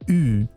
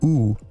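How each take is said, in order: First: The vowel is made at the front of the mouth. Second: The vowel is made far back in the mouth. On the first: It marks French speech. "the French U is pronounced like" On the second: It marks typical American speech. "The typical American U is pronounced at the far back of the mouth"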